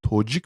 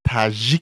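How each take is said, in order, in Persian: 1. واکهٔ اول صدای 'o' است. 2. واکهٔ اول صدای 'a' است. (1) "Тоҷик намегӯянд" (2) "Қазоқҳо тоҷикоя таҷик мегӯянд"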